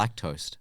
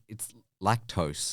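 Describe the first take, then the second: First: The word ends sounding like 'toast'. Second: The word ends sounding like 'tose'. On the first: The speaker calls it wrong. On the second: The speaker calls it right.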